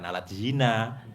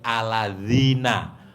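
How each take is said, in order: First: The word is broken apart with a hard D. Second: The word flows together as one smooth unit. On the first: It sounds like a different, improper phrase. The speaker calls it wrong. "kalau diputus jadi alat zina" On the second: It means those people who. The speaker calls it right. "tapi aladzina"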